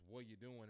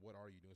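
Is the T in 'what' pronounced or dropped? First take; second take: dropped; pronounced. First: It is said Nashville-style, with no T sound. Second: It is said fully, with the T in 'what'.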